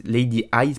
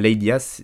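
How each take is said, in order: First: "Ice" redone as "eye-z", with a clear diphthong; corrected name. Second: "Ice" fumbled as "ee-ass", vowel split wrongly; slip on the name. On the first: Host correcting the rapper's name, "Ice" pronounced like "eyes". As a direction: fix "Ice" to sound like "eyes". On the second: Host naming the rapper, slips on "Ice" as "ee-ass". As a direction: stumble on "Ice", saying it like "ee-ass". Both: Real, not acted.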